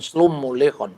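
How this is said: The first word has o-vowels, like slomo. "Kalau Aram Barat"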